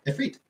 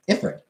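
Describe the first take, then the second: First: Ifrit said "if-REET"; correct pronunciation. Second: Ifrit said "IF-rit"; common mispronunciation. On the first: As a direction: end Ifrit on a long "ee". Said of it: "I found out that". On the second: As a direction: say Ifrit as spelt, short weak ending. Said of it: "everybody just thought". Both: Shown as a demonstration.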